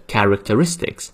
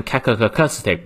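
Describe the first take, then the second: First: Characteristics with the R clearly sounded before "istics"; R kept. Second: Characteristic garbled without R, "kaka-ka-stic"; mispronounced, R dropped. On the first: Teacher correcting learners, characteristics with its R sounded. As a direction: pronounce the R in characteristics, "ka-rik-tuh-RIS-tiks". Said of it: "也是characteristics". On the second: Teacher warning students with characteristic said wrongly, R sounds missing. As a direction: swallow every R in characteristic, wrongly British. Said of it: "不能英式发音变成characteristic也是不行啊". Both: Shown as a demonstration.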